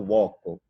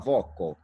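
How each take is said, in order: First: The word begins with a w glide. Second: The word begins with a v consonant. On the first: "o latim reconstituído fala" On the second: "o italiano fala"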